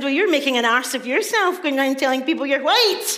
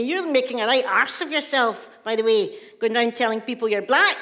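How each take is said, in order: First: Louder, higher mocking comeback; retold retort. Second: Brother's mildly scornful telling-off; retold scolding. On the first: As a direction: throw the scolding back, punchy and raised. Throws brother's words back at him. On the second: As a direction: act out a brother's ticking-off, rising at the end. Brother scolds speaker in retold row.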